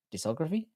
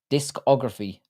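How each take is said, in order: First: "Discography" softly, rising like a question. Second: "Discography" said in full, falling at the end; firm restatement. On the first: Streamer checking the word he stumbled on, questioning tone. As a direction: try "Discography" higher and quieter, unsure of it. Queries his own pronunciation of word. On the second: Streamer correcting himself after stumbling on the word, firm restatement. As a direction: state "Discography" plainly, with a settled falling close. Settles on pronunciation after querying it. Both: Real, not acted.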